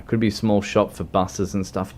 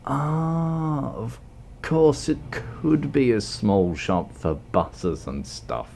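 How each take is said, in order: First: Said in the usual way. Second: Slow, drawn-out mock realization, trailing down; put-on slow, deliberate delivery. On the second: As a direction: stretch out a high "Ah" then repeat it slowly. Slow put-on repeat of his guess.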